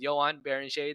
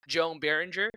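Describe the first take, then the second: First: The name gets a non-Americanized pronunciation. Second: The name gets an Americanized pronunciation. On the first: The speaker calls it right. "I will say it right" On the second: The speaker calls it wrong. "How very American of me"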